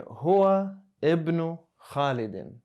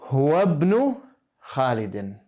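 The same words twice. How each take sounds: First: "huwa ibnu Khalidin" slow, each word apart; "huwa ibnu Khalidin" with full separate words; read separately. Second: "Huwa ibnu Khalidin" run together, louder; "Huwa ibnu Khalidin" read as one connected phrase; linked reading. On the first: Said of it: "Reading these separately, you would say". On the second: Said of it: "that's how you would read that". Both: Shown as a demonstration.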